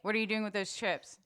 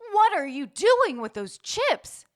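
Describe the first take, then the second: First: It is said in a relaxed, everyday way. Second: It is said in an exaggerated, theatrical way. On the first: The line sounds like real speech. The speaker calls it right. "Instead of" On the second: The line is being acted. The speaker calls it wrong. "if people are acting, they might be like"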